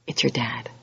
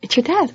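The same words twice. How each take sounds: First: Hushed reveal, a breathless whisper; dramatic whisper. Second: Higher, rising disbelief; surprised repeat. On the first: The judge on the bench turns out to be your dad, whispered reveal. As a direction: let the twist drop in a whisper. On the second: Repeating to the congregation that the judge is your dad, amazed. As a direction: say it again as if you can't believe it. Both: Acted.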